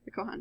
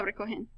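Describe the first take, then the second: First: "Recojan" ending in an "an" sound, softer; corrected ending. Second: "recogen" ending in an "en" sound; mispronounced ending. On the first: Teacher correcting a slip, "Recojan" ending in "an". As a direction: say "Recojan" quietly with an a in the last syllable. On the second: Teacher misreading a Spanish command, "recogen" ending in "en". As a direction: say "recogen" with an e in the last syllable. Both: Real, not acted. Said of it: "Recojan, excuse me".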